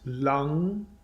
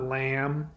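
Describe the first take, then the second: First: The word ends with an ng sound. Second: The word ends with an m sound. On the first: The speaker calls it right. "It's Lang" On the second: The speaker calls it wrong. "It's not lamb"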